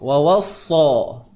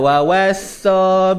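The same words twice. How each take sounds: First: The 'sa' sounds full and heavy. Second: The 'sa' sounds thin and affected. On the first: The speaker calls it right. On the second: The speaker calls it wrong.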